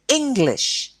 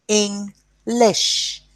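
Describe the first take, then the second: First: Said in the usual way. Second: English sounded out as "Eng... lish", each part held, higher pitch; split into syllables. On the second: Shown as a demonstration. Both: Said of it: "two syllables".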